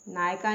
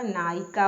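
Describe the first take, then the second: First: नायिका without its i, naay-ka; wrong pronunciation. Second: नायिका with clear middle i, naa-yi-ka; correct pronunciation. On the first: Teacher showing the mistake, नायिका said as naay-ka. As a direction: squeeze नायिका to two syllables, naay-ka. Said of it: "नायिका नहीं होता". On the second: Teacher correcting learners, नायिका said as naa-yi-ka. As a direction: sound the i in नायिका. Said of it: "नायिका होता है". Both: Shown as a demonstration.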